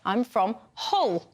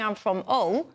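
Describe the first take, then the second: First: The h at the start of Hull is clearly pronounced. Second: The h at the start of Hull is dropped. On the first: This is a posher voice put on to sound refined. "telephone voice, over-pronunciation of the letter H" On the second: This is the everyday local way of speaking. "which is how we would say it"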